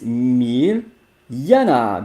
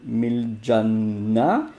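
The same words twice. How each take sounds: First: The J is sounded like English 'y'. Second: The J is sounded like English 'j'. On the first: The speaker calls it right. "It's Miljana because I think it's Serbian. The J is Y" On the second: The speaker calls it wrong. "the pronunciation is not Miljana"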